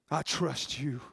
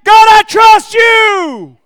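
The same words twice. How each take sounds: First: "I trust you" hushed, much softer and lower; David praying alone, softly saying "I trust you"; quiet prayer. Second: "God, I trust you" shouted, much higher and slow; David shouting his trust in God; shouted declaration. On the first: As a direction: breathe "I trust you" to God. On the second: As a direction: cry "I trust you" out to heaven. David declaring faith aloud. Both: Acted.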